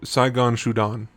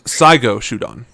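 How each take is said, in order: First: The first word ends with an n sound. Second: The first word ends with a vowel. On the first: The speaker calls it wrong. "I might have mispronounced that" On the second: The speaker calls it right. "My apologies"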